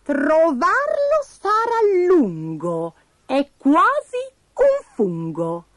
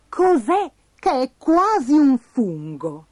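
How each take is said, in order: First: High, very slow recitation; squeaky oracle, word by word; Pasticciona's riddle. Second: Slow, rising question; higher, louder baffled query; puzzled Bastoncello. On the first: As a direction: stretch the rhyme out mysteriously. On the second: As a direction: puzzle over each word, ending upward. Bastoncello repeats riddle as question. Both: A narrator's reading.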